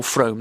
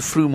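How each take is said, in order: First: "Frome" said with a long oh vowel; alternative pronunciation. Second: "Frome" said as "Froom", long oo vowel; alternative pronunciation. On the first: Football presenter unsure of a town's name, "Frome" rhyming with home. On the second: Football presenter unsure of a town's name, "Frome" as Froom. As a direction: say "Frome" to rhyme with broom. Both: Shown as a demonstration. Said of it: "don't know how you pronounce it".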